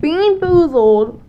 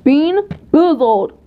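First: Slow, loud title call; drawn-out show announcement; announcer voice. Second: Slow, louder title call; drawn-out show announcement; announcer voice. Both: Shown as a demonstration. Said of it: "announcing the challenge title".

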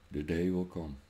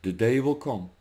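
First: Much softer, lower menacing echo; quiet threat. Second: Said in the usual way. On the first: Real, not acted. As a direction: drop the voice to a low threat. Repeated threat to politicians.

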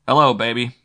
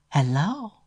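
First: Said in the usual way. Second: Much higher, sultry answering voice; sexy woman's hello. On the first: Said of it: "narrator's own voice as Matt". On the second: A narrator's reading. Flo answering Matt's call at home, sultry higher voice. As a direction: purr hello down the phone line. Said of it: "Flo's sexy voice said".

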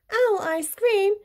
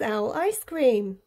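First: Higher, startled question; alarmed echo. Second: Said in the usual way. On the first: A narrator's reading. Owl learns he is the favourite food, alarmed. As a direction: repeat it in shocked disbelief.

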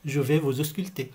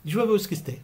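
First: Said in the usual way. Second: Quick, run-together doctor phrase; said fast like a doctor. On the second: Shown as a demonstration. Teacher showing how a doctor says it quickly, fast. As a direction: rattle it off as natives do. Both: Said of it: "بيقولوها بسرعة هيك".

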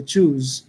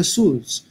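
First: চুজ with a clear ch start and a buzzing j ending, pitched lower; correct pronunciation. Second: সুজ with an s sound instead of ch; wrong pronunciation. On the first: Teacher modelling the correct চুজ with a j ending. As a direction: say চুজ carefully, ending on a voiced j. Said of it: "এন্ডিংটা হচ্ছে জ সাউন্ডে". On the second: Teacher showing the common wrong সুজ with an s. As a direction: show the mistake: সুজ with a plain s. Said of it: "যেটা আপনার একটু ভুল উচ্চারণ হবে". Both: Shown as a demonstration.

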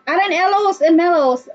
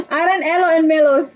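First: Said in the usual way. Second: Names read through a real laugh. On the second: Real, not acted. Streamer rereading a viewer's odd name, laughing. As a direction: break up laughing as you read.

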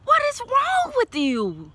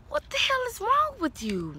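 First: High, slow, disbelieving scold; exasperated. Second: High but quieter, disbelieving; softer exasperation. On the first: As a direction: throw your hands up at Leo. Reader scolds Leo over cards. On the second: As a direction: shake your head at Leo, softer. Reader scolds Leo again. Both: Real, not acted.

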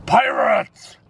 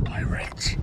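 First: High alarmed shout of warning. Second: Urgent hushed warning whisper. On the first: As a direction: sound the alarm at full voice. Alarm call about pirates. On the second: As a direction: breathe it so nobody hears. Sneaky warning about pirates. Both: Pretend.

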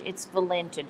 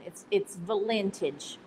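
First: "vintage" said as "valentage"; Texan coinage "vintage" as "valentage"; made-up word. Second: "vintage" said as "valentage"; made-up word. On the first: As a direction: say "vintage" as "va-LEN-tage", falling. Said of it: "When something is really good vintage". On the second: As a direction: stretch "vintage" into "va-LEN-tage", slow. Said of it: "I've got a new one". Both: Shown as a demonstration.

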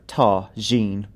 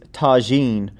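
First: Tagine said slowly, each syllable clear; tagine, drawn out and careful. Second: Said in the usual way. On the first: Shown as a demonstration. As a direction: spell out tagine slowly for the listener. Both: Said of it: "That's tagine".

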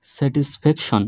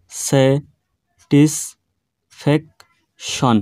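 First: Said in the usual way. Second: satisfaction very slow as স্যা, টিস, pack, শন with long pauses; split into four syllables. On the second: Shown as a demonstration. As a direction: break satisfaction into four isolated beats. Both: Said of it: "চারবারে উচ্চারণ করা সম্ভব".

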